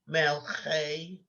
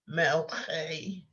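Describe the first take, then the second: The two takes are said the same way.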